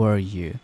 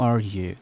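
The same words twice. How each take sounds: The two takes are said the same way.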